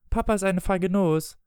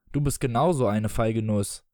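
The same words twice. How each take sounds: First: Put-on high-pitched boy's taunt; taunting child. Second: Retorting father. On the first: Michael taunts his father over the medicine, high child voice. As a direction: pitch it up like a child needling a parent. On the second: Acted. Father answers his son's taunt, petty retort. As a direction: throw the taunt back in an adult voice.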